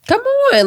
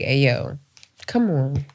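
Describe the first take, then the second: First: High-pitched exasperated 'come on'; whining appeal. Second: Soft, low 'come on'; softly exasperated, retold; low-key appeal. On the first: Retold or imitated. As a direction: plead it way up high. Repeats the appeal, now pleading harder. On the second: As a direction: quietly plead for seriousness, low in pitch. Acts out reasoning with unserious friend.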